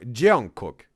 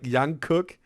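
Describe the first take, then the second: First: The name begins with a J sound. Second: The name begins with a Y sound. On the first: The speaker calls it right. "young cook with a J" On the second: The speaker calls it wrong. "not like not like young cook"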